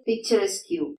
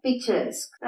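First: "പിക്ചറസ്ക്യൂ" ending in "kyoo"; common mispronunciation. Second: "പിക്ചറസ്ക്" ending in a k; correct pronunciation. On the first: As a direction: read the que as "kyoo" in "പിക്ചറസ്ക്യൂ". ("പിക്ചറസ്ക്യൂ", അവസാനം ക്യൂ ശബ്ദം) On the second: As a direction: stop "പിക്ചറസ്ക്" on "esk". ("പിക്ചറസ്ക്", അവസാനം ക് മാത്രം) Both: Shown as a demonstration. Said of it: "അത് തെറ്റാണ്".

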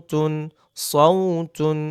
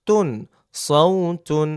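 The two takes are said the same way.

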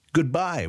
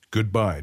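First: Higher, knowing goodbye; a sly, shrewd farewell; shrewd general. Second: Said in the usual way. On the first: A narrator's reading. General bidding Weyra goodbye, shrewd and higher.

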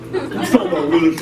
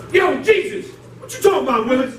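First: Sitcom catchphrase impression. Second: Willis catchphrase. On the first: Shown as a demonstration. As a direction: lower take on the Willis line. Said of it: "How'd he go?". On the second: Acted. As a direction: challenge Jesus like a sitcom kid. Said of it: "some of y'all don't know about Willis".

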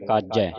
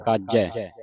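First: ਕਾਜੈ with a single light j; ਕਾਜੈ without adhak; wrong reading. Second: ਕਾਜੈ with a held double j; doubled-sound reading. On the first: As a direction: say ਕਾਜੈ as a quick "kaaje". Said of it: "ਕਾਜੈ ਨਹੀਂ ਪੜ੍ਹਨਾ". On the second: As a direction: lean on the j, "kaaj-jai", in ਕਾਜੈ. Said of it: "ਇੱਥੇ ਵੀ ਅਧਿਕ ਲੱਗੇਗਾ". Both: Shown as a demonstration.

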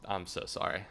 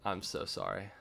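No difference in how they are said.

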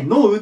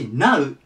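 First: ノー said like "no", K silent; ノー with a long o, as in "know". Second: Now said "nau", rhyming with "cow"; now with an "ow" sound, unlike ノー. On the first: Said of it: "ノーって言うんですけど". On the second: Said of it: "こっち、now". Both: Shown as a demonstration.

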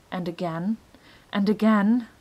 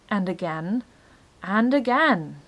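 Both takes have the same delivery.

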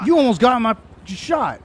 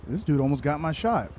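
First: Loud, furious yell; real outburst, much louder; angry shout. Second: Said in the usual way. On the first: Real, not acted. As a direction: blast it at him in real anger. Angry at the player who nearly shot him.

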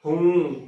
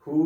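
First: ਹੂੰ said with a nasal vowel, the mistaken way; ਹੂੰ with a tippi nasal hum; wrong nasal hoon. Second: ਹੂ with a clean oral long u, no nasal; ਹੂ pure long vowel, unnasalised; correct plain hoo. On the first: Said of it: "ਹੂੰ ਉਚਾਰਨ ਕਰ ਦਿੰਦੀਆਂ ਨੇ". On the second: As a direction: say ਹੂ without any nasal hum. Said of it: "ਹੂ ਹੁੰਦਾ ਹੈ, ਨਾ ਕਿ ਹੂੰ". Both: Shown as a demonstration.

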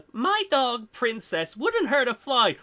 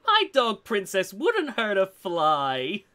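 First: Lightly voiced cooing owner; a hint of sweet pet owner; doting dog owner. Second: Slow creepy lady voice. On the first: Imagining the pit bull's owner, light cooing voice. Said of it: "I just imagined". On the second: Acted. Retrying the dog owner line, slow creepy lady. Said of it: "creepy lady".

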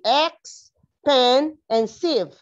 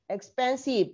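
First: Ex, pen, sieve split with pauses, each syllable counted aloud. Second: Said in the usual way. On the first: Shown as a demonstration. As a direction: break expensive into its three syllables with a beat between each. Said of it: "one, two, three". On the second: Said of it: "three syllables".

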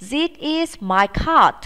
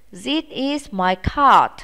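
First: Slow drill, lifted higher; slow higher classroom model; slow model sentence. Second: Slow, even repeat; slow repeat of the model; slow model sentence. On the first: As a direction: say it slowly and brightly for pupils to copy. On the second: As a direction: say it again slowly for pupils to copy. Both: Shown as a demonstration. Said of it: "Chúng ta cùng nói nhé".

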